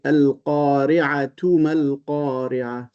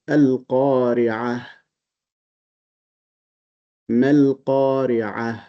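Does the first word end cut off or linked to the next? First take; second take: linked; cut off. First: The first word ends in 'atu', linked onward. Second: The first word ends in 'ah' with a stop. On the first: "But if you connect" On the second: "You are stopping"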